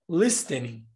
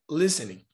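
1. O som do T é pronunciado claramente. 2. O som do T não é pronunciado. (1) "você não vai dizer listening" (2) "o T também aqui, olha, vai ser mudo"

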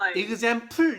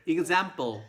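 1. p는 풀처럼 숨이 섞인 격음이에요. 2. p는 뿔처럼 긴장된 평음이에요. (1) "이렇게 풀 이렇게 발음 안 하고" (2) "뿔이라고 발음해요. 뿔"

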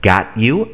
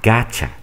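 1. Las dos palabras se dicen por separado y completas. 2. Las palabras se unen en un solo sonido reducido 'gotcha'.

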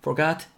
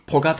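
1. 첫 소리는 분명한 F 소리예요. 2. 첫 소리는 분명한 F 소리가 아니에요. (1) "F 사운드. Forgot 발음해 주시고요" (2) "Forgot 하시면 안 됩니다"

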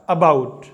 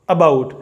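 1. पहला स्वर छोटा और हल्का है, uh। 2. पहला स्वर छोटा और हल्का है, uh।

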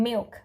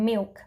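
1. คำนี้ออกเสียงแบบที่ถูกสอน 2. คำนี้ออกเสียงแบบที่ถูกสอน

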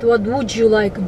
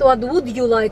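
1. Would и you сливаются в звук 'ja'. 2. Would и you произносятся как отдельные слова. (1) "они говорят what would you like, G" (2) "они не говорят what would you like"

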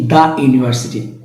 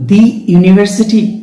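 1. 'The' উচ্চারিত হয় ছোট 'uh' স্বরধ্বনি দিয়ে। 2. 'The' উচ্চারিত হয় লম্বা 'ee' স্বরধ্বনি দিয়ে। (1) "দি ইউনিভার্সিটি নাকি দা ইউনিভার্সিটি" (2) "দি ইউনিভার্সিটি নাকি দা ইউনিভার্সিটি"

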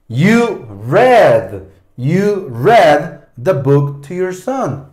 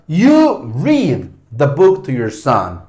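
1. La vocal de 'read' es corta, como 'red'. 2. La vocal de 'read' es larga, como 'reed'. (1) "Leíste, o vos leíste" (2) "La primera, ... Tú lees el libro a tu hijo"

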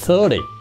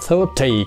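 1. Phụ âm giữa là âm d mềm. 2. Phụ âm giữa là âm t rõ. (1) "Họ đọc lười thành ra 30" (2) "người Anh, người Úc họ đọc thành nó chữ tờ rõ ràng"

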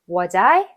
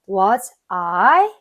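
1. 두 단어가 줄어들고 붙어서 발음돼요. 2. 두 단어 모두 완전하게, 따로 발음돼요. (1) "더 줄여주셔야 돼요" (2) "Was I가 아니고요"

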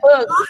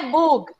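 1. A vogal é um som curto 'uh'. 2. A vogal é um som longo. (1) "é bug" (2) "Não é bug"

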